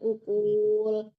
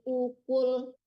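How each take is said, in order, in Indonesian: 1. Suku kata kul dipanjangkan. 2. Suku kata kul pendek dan terputus. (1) "jangan ukul" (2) "Dimatikan cepat"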